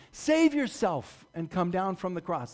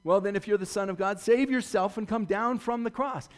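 First: Slow, sneering repeat; slow drawn-out taunt. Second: Higher, louder sneering dare; jeering taunt. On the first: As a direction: drag the dare out to rub it in. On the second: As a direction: fling it up at him like a heckler. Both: Acted. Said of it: "throwing his words back in his face".

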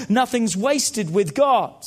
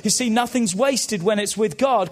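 First: "Nothing's wasted with God" said slowly, each word leaned on; slow down and press every word of "Nothing's wasted with God"; slow emphatic restatement. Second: Said in the usual way. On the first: Shown as a demonstration. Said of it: "let me say that again". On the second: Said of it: "Come on, let me say that again".

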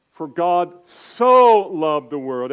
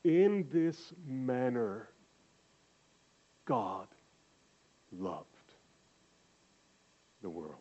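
First: "so" punched loud and slow as in so much; slow, loud, lean on so; stress on so. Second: Slow, fading to hushed on "loved the world"; the meaning, gently, to the listeners; soft explanatory reading. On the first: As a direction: show how the English sounds to everyone. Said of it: "It doesn't sound like "in this manner". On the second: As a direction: let it sink in softly. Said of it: "which means". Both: Shown as a demonstration.

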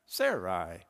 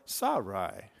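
First: "Sarai" as SAIR-eye; first pronunciation of Sarai. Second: "Sarai" as SAH-rye; second pronunciation of Sarai. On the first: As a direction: say "Sarai" slowly, first syllable like "air". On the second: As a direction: say "Sarai" slowly, first syllable with an open "ah". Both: Shown as a demonstration. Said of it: "how words are pronounced".

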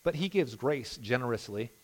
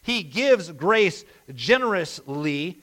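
First: Softer, savouring "But he gives grace generously"; quiet reread. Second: "He gives grace generously" slow, leaning on "gives"; slow emphasis. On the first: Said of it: "Just that little sentence there". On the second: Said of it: "he hands out grace to you". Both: Shown as a demonstration.

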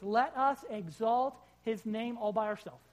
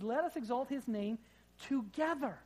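First: Ourselves stressed as the wrong reading: "Let us exalt his name all by ourselves" said slow and louder; misquote on purpose. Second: "together" lifted high as the true word; correct reading. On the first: Preacher misquoting the psalm slowly to the church. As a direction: read "all by ourselves" slowly and firmly as the joke version. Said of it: "It says, "Let us exalt his name together". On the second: Preacher giving the real psalm words to the church, stressing together. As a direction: land on "together" with a higher pitch. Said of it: "It says".

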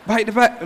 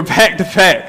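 First: "back" slips toward "bite" in "back to back"; tongue slip. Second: Said in the usual way. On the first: Real, not acted. Preacher describing where the verses were, tongue slip. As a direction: stumble on "back", giving it a long i like "bike". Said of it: "like they, I say back". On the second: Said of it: "I say back".

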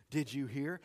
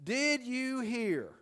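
First: Said in the usual way. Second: Slow, higher, drawn-out "Did you hear?"; teasing gossip hook; gossip's opener. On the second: Shown as a demonstration. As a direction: draw out "Did you hear?" like juicy news is coming. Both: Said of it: "here are a few to get you started".

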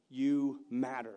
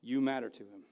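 First: Slow, weighted you matter; slow emphatic. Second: Said in the usual way. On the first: Shown as a demonstration. Pastor telling the congregation they matter, slow. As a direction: lean on You matter slowly.

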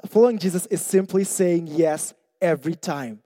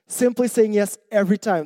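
First: Said in the usual way. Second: "Simply" lifted higher and stressed; "Simply saying yes" pressed home as the key line; emphatic repeat. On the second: Shown as a demonstration.

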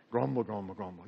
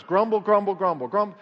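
First: Very low, quiet rumble; ugly crowd grumbling. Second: Punchy, loud "grumble" repeated as a model; loud demonstration. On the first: Retold or imitated. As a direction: imitate a crowd's ugly grumble, sinking lower and softer. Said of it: "Ooh, that sounds ugly". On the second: Shown as a demonstration. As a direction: chant it briskly and loudly. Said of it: "In fact, very loud".

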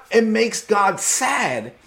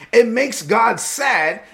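Both takes have the same delivery.

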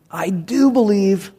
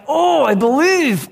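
First: Slow, measured declaration of belief; mildly exclaimed, drawn out for emphasis. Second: High, drawn-out anguished cry; hammed-up desperate wail, stretching the words. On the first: Acted. Father answering Jesus in the read verse, mildly exclaiming. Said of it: "the boy's father exclaimed". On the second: Desperate father crying out to Jesus, acted anguished cry. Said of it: "he's, he's crying".

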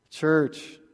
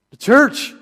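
First: Said in the usual way. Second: Loud and high, calling to the crowd; preacher calling out for a shout back; called out loud. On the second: Shown as a demonstration. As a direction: call it out to the congregation. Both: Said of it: "Shout it out".

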